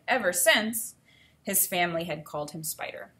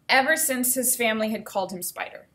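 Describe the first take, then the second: First: It is read with a pause at the comma. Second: It is read straight through without a pause. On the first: The speaker calls it right. "making sure I paused at the comma" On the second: The speaker calls it wrong. "I skipped a comma. I didn't pause"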